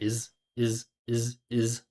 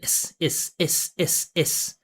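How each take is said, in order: First: The voice resonates deep down in the chest. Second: The voice resonates high up in the mouth. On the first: The speaker calls it right. "I'm speaking down here" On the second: The speaker calls it wrong. "That's in the mouth"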